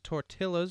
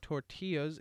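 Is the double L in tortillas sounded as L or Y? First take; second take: L; Y. First: The double L is sounded like an English L. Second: The double L is sounded like a Y. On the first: The speaker calls it wrong. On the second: The speaker calls it right.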